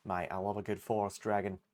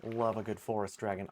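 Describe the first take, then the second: First: A bad Australian accent, barely there; half-hearted Australian accent. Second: Put-on a second try at the Australian accent, still faint; weak Australian accent again. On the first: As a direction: have a go at an Aussie accent and miss. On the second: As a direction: repeat it in a feeble Australian accent. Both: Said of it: "I can't do an Australian accent to save my life".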